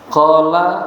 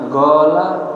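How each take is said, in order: First: The word begins with a deep q sound. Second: The word begins with a hard g sound.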